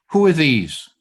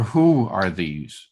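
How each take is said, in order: First: "are" pushed a little louder and falling; a reading that asks what they are; stress on are. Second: Slow, with "Who" leaned on; a reading that asks who they are; stress on who. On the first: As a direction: lean on "are" in "Who are these?". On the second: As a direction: hit "Who" and take it slowly. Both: Shown as a demonstration. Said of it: "But maybe the emphasis was".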